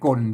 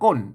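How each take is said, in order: First: The word carries the ek tone. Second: The word carries the ordinary tho tone. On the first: "ใส่ไม่เอกก้นก้นเสียงเสียงไม่เอก" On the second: "ก้นเสียงโทปกตินะครับ"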